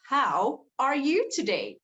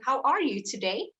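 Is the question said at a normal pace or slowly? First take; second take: slowly; normal. First: The question is said slowly, word by word. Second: The question is said at a normal, connected pace. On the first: "I speak slower ... Word by word" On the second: "instead of just asking"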